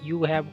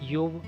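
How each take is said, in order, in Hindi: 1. दो अलग-अलग पूरे शब्द बोले जाते हैं। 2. शब्द मिलकर एक छोटा अक्षर बन जाते हैं।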